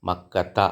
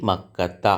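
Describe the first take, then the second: No difference in how they are said.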